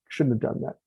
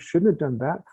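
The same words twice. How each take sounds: First: It is said with a sharp, punishing edge. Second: It is said softly and kindly. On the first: A mistake is something to be punished for. The speaker calls it wrong. "with that edge, the tone, the emotion of a punishment" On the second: A mistake is simply feedback for learning. The speaker calls it right. "it might tell it really gently, like that"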